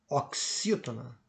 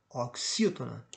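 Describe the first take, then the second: The two takes are said the same way.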